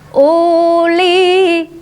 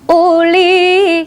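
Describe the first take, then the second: First: The first vowel is drawn out long. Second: The first vowel is kept short. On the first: The speaker calls it wrong. "u-nya dilarang dibaca uli" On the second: The speaker calls it right. "tidak usah dibaca panjang"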